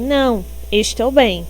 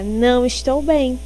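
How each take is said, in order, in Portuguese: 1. Há uma pausa depois da primeira palavra. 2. Não há pausa depois da primeira palavra. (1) "ele está dizendo que está bem" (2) "Não vai ter a pausa aí do não"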